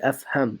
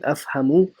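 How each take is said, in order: First: The word ends on a consonant, no vowel. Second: The word ends with a final u vowel. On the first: The speaker calls it right. "you would say أفهم" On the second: The speaker calls it wrong. "Instead of saying أفهمu"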